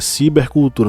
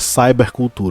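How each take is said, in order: First: The first part is pronounced the Portuguese way. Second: The first part is pronounced the English way. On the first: The speaker calls it right. "é cibercultura" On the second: The speaker calls it wrong. "não é cybercultura"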